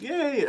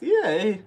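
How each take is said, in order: First: High cheer that cracks. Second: Loud, high cheer breaking into laughter; playful repeated cheer. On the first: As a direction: cheer too high for an early morning voice. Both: Real, not acted. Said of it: "did my voice crack? Early morning voice".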